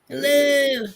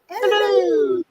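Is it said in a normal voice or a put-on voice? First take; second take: normal; put-on. First: It is said in a normal voice. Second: It is said in a Mrs. Doubtfire voice.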